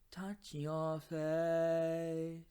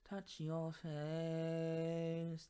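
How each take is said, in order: First: It has an open, balanced, brighter vowel. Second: It has a strongly nasal vowel sound.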